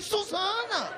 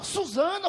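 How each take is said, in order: First: High, drawn-out falling cry; acted echo of a name. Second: High, rising, lightly said name; acted name reveal. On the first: Man reacting to her real name, high falling echo. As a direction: repeat the name high, then let it slide down. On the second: Woman showing him her ID, high rising voice. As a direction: offer the name with a lift.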